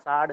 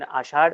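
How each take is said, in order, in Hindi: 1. मध्य व्यंजन एक सादा 's' ध्वनि है। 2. मध्य व्यंजन एक 'sh' ध्वनि है। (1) "कई लोग कहते हैं आषाढ़ साढ़ श का उच्चारण करते समय स आ जाता है" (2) "उसका इस तरह से उच्चारण करना चाहिए"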